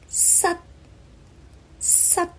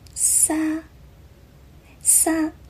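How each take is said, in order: First: The syllable ends abruptly, with the airflow cut off. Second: The syllable ends open, with no closing stop. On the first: The speaker calls it right. "而粤语的发音是撒撒 ... 结束音是要收住气流的" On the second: The speaker calls it wrong. "我好像听到它的发音是撒撒"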